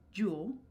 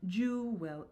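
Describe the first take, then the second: First: The word is said as one short syllable. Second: The word is stretched into two syllables. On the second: "making it two syllables, again, elongating that word"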